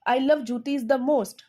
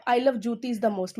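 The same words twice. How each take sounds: First: Slow, love and most leaned on; teacher stresses the favourite item. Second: "I love jutis the most" said slowly, most pressed; slow emphatic repeat; stress on most. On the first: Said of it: "मैंने इस चीज़ को emphasise किया है". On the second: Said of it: "थोड़ा stress दिया है, जोर लगा के बोला है". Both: Shown as a demonstration.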